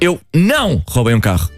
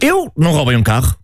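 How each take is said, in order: First: The stress is on "não". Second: The stress is on "Eu".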